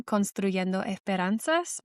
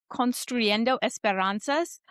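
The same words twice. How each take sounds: First: "Construyendo Esperanzas" slowly, with Spanish vowels and tapped r; "Construyendo Esperanzas" pronounced the Spanish way, careful and slow; Spanish pronunciation. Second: "Construyendo Esperanzas" with English r and vowels, "Construyendo" rising; "Construyendo Esperanzas" read by a non-Spanish speaker, Americanized; american accent spanish. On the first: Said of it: "so I speak Spanish". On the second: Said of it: "I apologize for my Spanish pronunciation". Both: Real, not acted.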